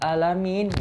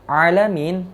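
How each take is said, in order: First: It begins with a plain glottal stop sound. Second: It begins with a throaty pharyngeal ain sound. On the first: It means the lord of the sick. The speaker calls it wrong. "kita ganti menjadi alif atau hamzah" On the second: It means the lord of the worlds. The speaker calls it right. "alamin yang tadinya ain"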